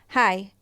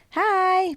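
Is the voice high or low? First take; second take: low; high. First: The voice is low and natural. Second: The voice is high and childlike. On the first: "but if you just go hi" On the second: "you get taken less seriously if you speak like hi"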